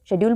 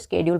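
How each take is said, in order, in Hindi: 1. यह शब्द 'sh' ध्वनि से शुरू होता है। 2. यह शब्द 'sk' ध्वनि से शुरू होता है। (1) "ब्रिटिश इंग्लिश के अंदर इसको शेड्यूल बोलते हैं" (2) "अमेरिकन के अंदर इसको स्केड्यूल बोलते हैं"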